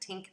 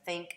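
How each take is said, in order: First: The word begins with a t sound. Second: The word begins with a th sound. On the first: "the t substitution" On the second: "instead of think"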